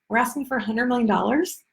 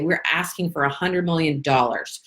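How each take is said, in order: First: The voice rises at the end. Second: The voice falls at the end.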